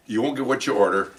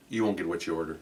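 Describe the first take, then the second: First: Said in the usual way. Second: Low, very soft aside; imitating a hushed, low warning; confidential warning. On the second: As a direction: slip a quiet tip to a stranger. Stranger quietly warns him about waitress.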